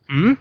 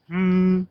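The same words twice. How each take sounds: First: The pitch rises from middle to high. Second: The pitch stays high and level. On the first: "Ryzen is" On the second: "flat tone is like"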